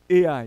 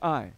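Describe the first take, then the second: First: The name is said as two syllables. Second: The name is said as one syllable. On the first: "I say A I because it's an A and an I" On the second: "Some people pronounce it I"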